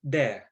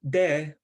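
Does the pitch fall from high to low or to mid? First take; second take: low; mid. First: The pitch falls from high to low. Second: The pitch falls from high to mid. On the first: It means rock. "of falling like high low tone" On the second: It means dream. "dream has a high mid contour"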